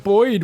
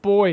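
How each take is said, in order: First: The name ends with a D sound. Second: The name ends without any D sound. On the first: The speaker calls it wrong. "You're adding a random D to the end of it" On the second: The speaker calls it right. "It's just boy"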